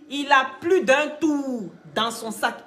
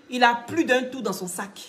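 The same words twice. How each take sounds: First: "plus" stressed, the whole line spelled out slowly; slow emphatic repeat. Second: Said in the usual way. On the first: Shown as a demonstration. To the viewers about the general: slow, weighty stress on "plus". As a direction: lean on "plus" and take it word by word. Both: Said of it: "repeated slowly for emphasis".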